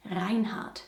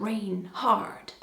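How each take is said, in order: First: Reinhard the German way, first syllable like "rhine"; German pronunciation. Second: Reinhard read as English "Rain Hard"; mock English reading. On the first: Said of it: "Or should I say, ... Rain Hard". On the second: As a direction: split it into two English words, Rain Hard. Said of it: "Or should I say". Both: Shown as a demonstration.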